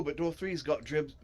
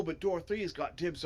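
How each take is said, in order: First: "dribs" said with a stray r; tongue-tied slip. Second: Said in the usual way. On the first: Real, not acted. Reader fumbling Griff's line, tongue-tied "dribs" with an extra r. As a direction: trip over the word, saying "dribs". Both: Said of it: "I gotta untie my tongue".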